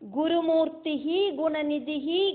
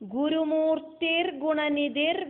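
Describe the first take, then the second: First: Each name ends with a separate 'hi' sound. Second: Each name ends in an 'r' linking it onward.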